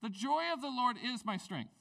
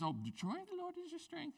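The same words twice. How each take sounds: First: "The joy of the Lord is my strength." with joy stressed, firm and raised; emphatic quote. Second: Much higher, softer sing-song "Oh, the joy of the Lord is your strength."; sweet card voice. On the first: Shown as a demonstration. Pastor asking the church to see the verse's context, firm emphatic. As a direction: proclaim "joy" plainly and firmly. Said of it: "see the context where that landed". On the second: Retold or imitated. Pastor mimicking writing a card to kids, high soft sing-song. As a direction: coo it like a cheery greeting card. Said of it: "to the kids".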